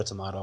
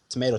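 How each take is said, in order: First: "tomato" with an open AH in the middle; alternative pronunciation of tomato. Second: "tomato" with a long AY in the middle; first pronunciation of tomato. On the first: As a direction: say "tomato" as tuh-MAH-toh. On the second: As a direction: say "tomato" as tuh-MAY-toh. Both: Shown as a demonstration. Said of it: "It's tomato, tomato, whatever".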